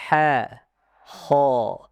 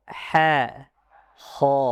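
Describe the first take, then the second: Both takes have the same delivery.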